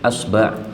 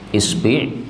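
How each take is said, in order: First: Both syllables use the vowel a. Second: Both syllables use the vowel i. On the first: "fathah pada hamzah dan fathah pada ba" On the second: "kasrah pada hamzah sama kasrah sama ba"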